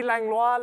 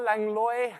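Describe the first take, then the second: First: Langlois said "lang-LWAH", French style; French pronunciation. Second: Langlois said "LANG-loy"; anglicized pronunciation. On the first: Host weighing two readings of a donor's name, French Langlois. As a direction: end Langlois on an open "wah". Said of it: "go with the French". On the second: Host weighing two readings of a donor's name, anglicized Langlois. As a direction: end Langlois on "loy", as in boy. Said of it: "Could be Langlois". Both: Shown as a demonstration.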